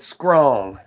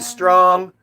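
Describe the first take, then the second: First: The word begins with an 'skr' sound. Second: The word begins with a plain 'str' sound. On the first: "we said scrong" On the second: "Instead of saying strong"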